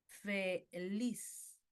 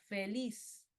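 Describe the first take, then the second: First: "feliz" split slowly as fe... LIZ; syllable-split final stress. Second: "feliz" with the stress on LIZ; stress on final syllable. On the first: Teacher repeating an example for students, "feliz" split as fe-LIZ. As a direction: break "feliz" in two, stretching the stressed LIZ. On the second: Teacher showing students an aguda word, "feliz" stressed on LIZ. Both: Shown as a demonstration. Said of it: "esa elevación de la voz está al final".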